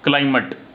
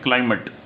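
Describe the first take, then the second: First: It is said in an American accent, vowel short. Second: It is said in an American accent, vowel short.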